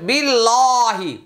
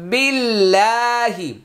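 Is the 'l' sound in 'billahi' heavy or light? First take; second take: heavy; light. First: The 'l' sound is heavy and thick. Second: The 'l' sound is light and thin. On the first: The speaker calls it wrong. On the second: The speaker calls it right.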